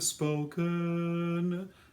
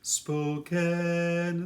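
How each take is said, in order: First: The second syllable has a dull schwa vowel. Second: The second syllable has a bright e vowel. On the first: The speaker calls it wrong. "Not a dull schwa" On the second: The speaker calls it right. "a nice bright e vowel"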